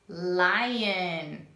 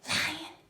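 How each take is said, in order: First: It is spoken in a normal voice. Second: It is spoken in a whisper.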